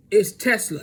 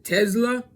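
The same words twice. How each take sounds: First: "Tesla" said properly with a crisp s, "TES-la"; correct pronunciation. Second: "Tesla" said as "Tezla" with a z, rising and higher; mock the Rat's "Tezla", buzzing a z; imitating wrong pronunciation. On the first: Shown as a demonstration. Vlogger correcting the name Tesla, crisp s sound. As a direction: give "Tesla" its clean s sound. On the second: Vlogger imitating the Rat mispronouncing Tesla as "Tezla". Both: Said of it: "And you know who pronounces it?".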